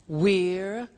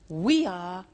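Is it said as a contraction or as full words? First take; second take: contraction; full words. First: It is said as one contracted word. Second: It is said as two full words.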